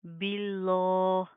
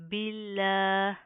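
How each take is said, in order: First: बिल्लाह with a thick, heavy lam, the wrong way. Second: बिल्लाह with a light, thin lam. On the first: Teacher shows the mistake before the right one. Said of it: "इसको हम इस तरह नहीं पढ़ेंगे". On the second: Teacher gives the correct thin-lam reading. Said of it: "लाम बारीक पढ़े जाएंगे". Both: Shown as a demonstration.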